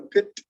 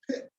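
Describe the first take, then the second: First: PIT with a crisply released final T. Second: PIT with the final T stopped, unreleased. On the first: Teacher showing what English speakers avoid, "pit" with released T. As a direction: finish PIT on an audible puff of T. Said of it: "it's not even a pit". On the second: Teacher showing students the usual "pit", final T held unreleased. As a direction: say PIT, cutting off the T without a puff. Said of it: "we just typically don't pronounce it that way". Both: Shown as a demonstration.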